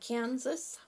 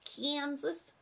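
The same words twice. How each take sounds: First: It is said in the plain local way. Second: It is said in a distant-region accent.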